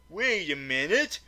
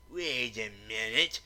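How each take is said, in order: First: Said in the usual way. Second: Much lower, softer put-on voice, interrupting; other voice. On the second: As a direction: growl a suspicious interruption low and quiet. A second voice interjects.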